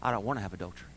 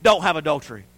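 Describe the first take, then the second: First: Low, very soft admission; gentle conviction. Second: Forceful, falling commandment; firm command. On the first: Grace teaching the believer, gentle conviction. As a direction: drop to a quiet personal confession. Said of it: "But grace teaches us". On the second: The law telling us what not to do, firm command. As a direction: lay it down as law. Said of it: "The law told us". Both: Retold or imitated.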